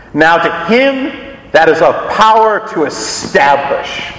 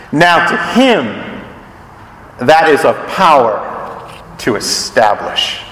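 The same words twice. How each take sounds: First: Archaic scripture reading. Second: "Now to him", "that is of power", "to establish" set apart with pauses, the last part slower and lower; phrased slowly. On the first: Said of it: "King James translates ... in its old language". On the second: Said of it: "Archaic, but beautiful". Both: Shown as a demonstration.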